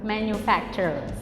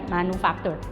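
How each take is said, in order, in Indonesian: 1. Kata ini dibaca dengan lafal bahasa Inggris. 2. Kata ini dibaca sesuai ejaannya. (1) "manufacture gitu" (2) "tulisannya manufacture, bacanya bukan manufacture"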